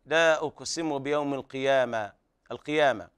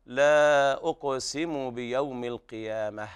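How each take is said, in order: First: القيامة ending in an open long "aa", no h; القيامة with the final h dropped into a long vowel; mistaken alif ending. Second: Slow recitation, القيامة closing on a light breathed h; القيامة ending "-ah", the h not overdone; correct soft ha ending. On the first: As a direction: end القيامة on a bare alif sound. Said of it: "بإقلاب التاء التأنيث إلى ألف". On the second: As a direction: stop on القيامة with a weak final h. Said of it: "فيكون النطق هكذا". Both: Shown as a demonstration.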